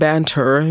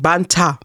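First: The word ends with an r-colored 'er' sound. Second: The word ends with an open 'a' sound. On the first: "instead of us saying banter" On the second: "we just ended it with an A"

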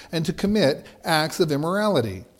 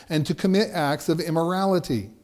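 No difference in how they are said.

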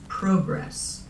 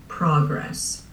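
First: It is said with a Canadian pronunciation. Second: It is said with an American pronunciation. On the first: "growing up, I said" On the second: "In the United States, they say"

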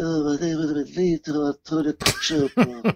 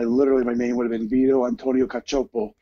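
First: It is said in a Godfather-style impression. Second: It is said in his normal voice.

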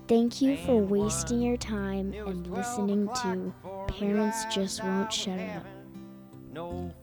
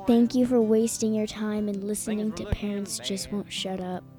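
First: It is said a little more slowly. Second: It is said at a normal pace.

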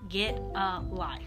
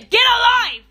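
First: It is said quietly and sweetly. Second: It is said loudly and forcefully. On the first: "I'm going to say it in my sweet voice. ... I said it really low" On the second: "But I could say"

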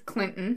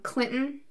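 First: The middle T is dropped. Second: The middle T is clearly pronounced.

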